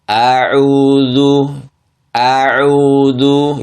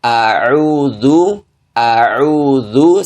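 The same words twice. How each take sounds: First: A'udzu dengan a panjang dua harokat; hamzah dipanjangkan. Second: A'udzu dengan a pendek satu harokat; hamzah satu harokat. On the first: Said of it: "kesalahan ... yang terjadi". (contoh salah, a'udzu dipanjangkan) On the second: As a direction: ucapkan a pada a'udzu pendek saja. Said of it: "Harusnya dibaca". (contoh benar, a'udzu satu harokat) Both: Shown as a demonstration.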